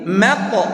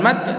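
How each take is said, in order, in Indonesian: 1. Huruf t di akhir dilepas dengan memantul. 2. Huruf t di akhir berhenti datar, tanpa memantul. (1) "qalqalah, tapi mat" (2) "bukan mat"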